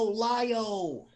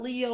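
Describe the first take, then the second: First: The first vowel sounds like 'lie'. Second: The first vowel sounds like 'lee'. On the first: The speaker calls it right. "As in lion" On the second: The speaker calls it wrong. "not Leo"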